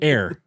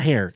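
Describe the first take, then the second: First: The word begins with a silent h. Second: The word begins with an audible h sound. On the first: The speaker calls it right. "it's heir" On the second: The speaker calls it wrong. "it's not hair"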